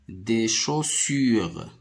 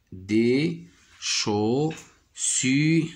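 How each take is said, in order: First: Said in the usual way. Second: "chaussures" split into chau... ssu... re; very slow, high des... chau... ssu... re; syllable by syllable. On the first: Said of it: "Je dis le mot". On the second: Shown as a demonstration. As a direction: beat out each syllable of chaussures. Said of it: "Je frappe les syllabes".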